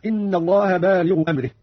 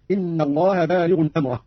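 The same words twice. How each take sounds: First: Said in the usual way. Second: بالغ as "bālighun", أمره as "amrah"; tanween on ghayn. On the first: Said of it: "قرأ قانون بتنوين الغين". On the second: Shown as a demonstration. Teacher demonstrating Qalun, بالغ with -un and أمره with an a. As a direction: sound the n ending بالغ, open أمره to "amra-". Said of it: "بتنوين الغين ونصب أمره".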